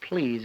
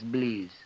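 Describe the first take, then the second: First: The word begins with a clear P sound. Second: The word begins with a B sound instead. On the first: "Instead of please" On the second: "It turns out B. It's always B"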